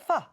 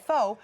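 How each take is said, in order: First: The word is said the way Vietnamese speakers say it. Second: The word is said as read from its spelling. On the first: This is how the word is really said. The speaker calls it right. "but it's really pho" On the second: This is how people commonly say it from the spelling. The speaker calls it wrong. "because it's spelled P H O, so people say pho"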